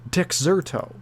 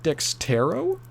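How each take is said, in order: First: The t sound comes just before the final o. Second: The t sound comes right after the x. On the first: The speaker calls it right. "It's Dexerto" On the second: The speaker calls it wrong. "People always pronounce it Dextero"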